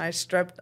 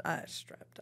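First: Said in the usual way. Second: Under-breath whisper. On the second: Real, not acted. Muttered self-correction.

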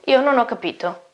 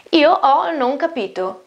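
First: Said in the usual way. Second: Io stretched and stressed, wrong word order Io ho non capito; slow stressed wrong order. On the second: Shown as a demonstration. Teacher models the literal German order slowly.

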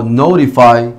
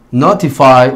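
First: Notify with T tapped like Spanish R; long I, tapped T. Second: Notify with a crisp T, ending "fai"; long I, clear T. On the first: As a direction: say notify as no-ri-fai, ending on "eye". (notify con T suave, "nourifai") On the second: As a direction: say Notify as no-ti-fai, T fully sounded. (Notify con T clara y final "fai") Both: Shown as a demonstration. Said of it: "la Y suena como un long I sound".

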